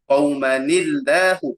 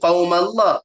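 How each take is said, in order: First: The n is kept and linked with an i vowel. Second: The n is dropped, running straight into Allah. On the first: The speaker calls it right. "kena baca qaumani" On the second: The speaker calls it wrong. "dak kan baca qaumallah"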